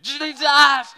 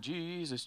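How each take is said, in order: First: The word is screamed loudly. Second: The word is said low and quietly. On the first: "Sometimes you need to just scream it" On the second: "we can just sing it at a low tone"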